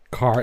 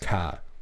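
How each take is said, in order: First: It is said with the R pronounced. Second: It is said with a Maine accent, R dropped.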